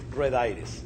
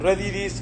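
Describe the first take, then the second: First: The name is said with English sounds. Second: The name is said with Spanish sounds. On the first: The speaker calls it wrong. "never pronounce it red iris" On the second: The speaker calls it right. "You just pronounce it"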